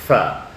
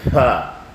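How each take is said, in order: First: The f sound is thick and clear. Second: The f sound is loose and weak. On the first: The speaker calls it right. "this one is very thick and very uh, well clear" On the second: The speaker calls it wrong. "it sounds very loosey, uh, eh, very weak"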